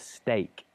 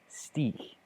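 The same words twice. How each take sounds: First: The vowel rhymes with ache. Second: The vowel does not rhyme with ache. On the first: The speaker calls it right. "but it's a steak, ache" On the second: The speaker calls it wrong. "Very typical mispronunciation to say steak"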